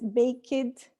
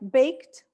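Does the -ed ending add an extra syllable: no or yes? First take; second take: yes; no. First: The ending is an extra syllable with a vowel. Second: The ending is a plain t with no vowel. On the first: The speaker calls it wrong. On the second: The speaker calls it right.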